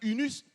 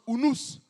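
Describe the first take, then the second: First: The u vowels sound like French rounded 'u'. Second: The u vowels sound like 'oo'. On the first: "en français c'est marqué unus" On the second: "ça se prononce unus"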